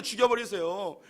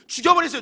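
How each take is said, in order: First: Said in the usual way. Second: Louder, higher outburst on 죽여버리세요; defiant shout. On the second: Acted. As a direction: hurl 죽여버리세요 at God in defiance. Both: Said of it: "뭐라고 이야기하면".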